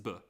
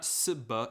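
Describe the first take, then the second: First: The cluster begins with a buzzing z sound. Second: The cluster begins with a hissing s sound. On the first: The speaker calls it right. "it's zb" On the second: The speaker calls it wrong. "It's not sb"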